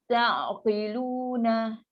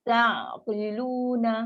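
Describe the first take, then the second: The two takes are said the same way.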